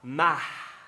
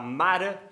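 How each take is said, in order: First: It is said in a Mineiro accent. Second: It is said in a Paulistano accent. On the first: "no sotaque mineiro de B H" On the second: "no sotaque paulistano"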